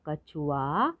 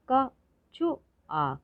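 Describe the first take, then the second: First: Said in the usual way. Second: कछुआ slowly split as क, छु, आ; high, separate beats in कछुआ; syllable by syllable. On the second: Shown as a demonstration. Teacher sounding out कछुआ for learners, syllable by syllable. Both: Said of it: "तो शब्द पढ़ते हैं".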